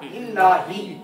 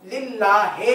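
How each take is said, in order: First: The word ends with an 'i' vowel. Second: The word ends with an 'e' vowel. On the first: The speaker calls it right. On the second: The speaker calls it wrong.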